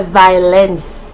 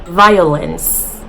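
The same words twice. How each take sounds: First: Violence said "vai-lence", two syllables; Jamaican pronunciation. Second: Said in the usual way. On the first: Shown as a demonstration. YouTuber shows the Jamaican way to say violence. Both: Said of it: "We say violence".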